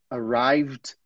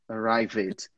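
First: The ending is a plain d sound. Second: The ending is said as an extra syllable. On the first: The speaker calls it right. "A gente não pronuncia que ele é em nenhuma delas" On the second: The speaker calls it wrong. "você tá falando tried, arrived"

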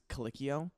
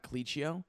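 First: The middle consonant is a hard k sound. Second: The middle consonant is a soft ch sound. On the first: The speaker calls it right. "phonetically pronounced Calicchio ... because the CH in Italian makes the cuh sound" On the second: The speaker calls it wrong. "and not Calicchio"

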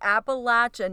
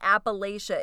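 First: The third syllable sounds like 'latch'. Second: The third syllable sounds like 'lay'. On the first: The speaker calls it right. "it's Appalachia" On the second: The speaker calls it wrong. "not Appalachia"

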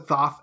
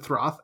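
First: The name is said without an R sound. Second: The name is said with an R sound. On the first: "I pronounce it Thoth" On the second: "you pronounce it Throth"

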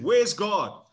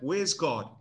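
First: It is bellowed in a loud voice. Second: It is said sternly, at normal loudness.

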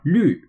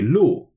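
First: The vowel is a fronted, rounded 'ü' sound. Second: The vowel is a plain back 'oo' sound. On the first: The speaker calls it right. "more curved mouth pronunciation" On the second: The speaker calls it wrong. "If it was just an LU sound with a fourth tone"

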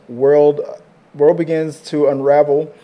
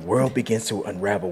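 First: It is read in an ordinary speaking voice. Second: It is read in a deep, dramatic trailer voice.

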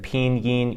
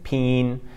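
First: Both syllables are fully and clearly pronounced. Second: It is quick, nasalized and squeezed into one syllable. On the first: "instead of pinyin" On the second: "once you nasalize it a little bit and speak quickly"

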